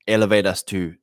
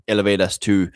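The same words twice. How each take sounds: The two takes are said the same way.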